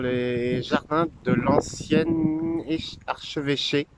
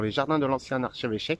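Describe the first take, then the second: First: The phrase is said at a normal, slower pace. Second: The phrase is said at a quicker pace.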